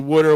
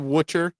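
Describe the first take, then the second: First: The word is pronounced casually, with a relaxed middle consonant. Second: The word is pronounced carefully, with the consonants articulated. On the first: The speaker is tired or angry. The speaker calls it wrong. "I still say Wooder when I'm tired or angry" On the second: The speaker is watching his pronunciation. The speaker calls it right. "Took me years to say"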